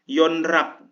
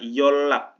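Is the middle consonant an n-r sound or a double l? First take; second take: n-r; double l. First: The middle consonants sound like n followed by r. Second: The middle consonants sound like a double l. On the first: The speaker calls it wrong. "salah teman-teman" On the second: The speaker calls it right. "Pengucapannya yolak, jadi double L"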